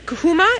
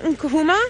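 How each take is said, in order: First: The name begins without an N sound. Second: The name begins with an N sound. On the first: Standing in a doorway ready to go out. The speaker calls it wrong. "If you mispronounce it" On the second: A brown ivory tree. The speaker calls it right. "the name in our local language here"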